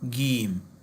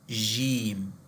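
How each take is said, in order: First: It begins with a hard g sound. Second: It begins with a j sound. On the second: "you can say jim ... like j"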